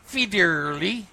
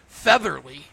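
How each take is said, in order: First: The name is said with a Swedish-style accent. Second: The name is said with an English pronunciation. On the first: "like the Swedish chef" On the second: "spelled like with a feather"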